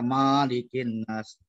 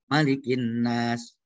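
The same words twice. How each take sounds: First: The first vowel of Malik is long. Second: The first vowel of Malik is short. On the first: The speaker calls it wrong. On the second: The speaker calls it right.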